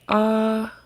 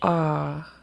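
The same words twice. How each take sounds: First: The long vowel is said on a high pitch. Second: The long vowel is said on a low pitch. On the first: "Long and high" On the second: "Long and low"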